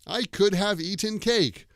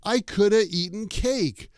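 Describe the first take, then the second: First: The word have is pronounced in full. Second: The word have is reduced to a weak vowel. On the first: The speaker calls it wrong. "we don't say" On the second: The speaker calls it right. "The way we pronounce that is like this"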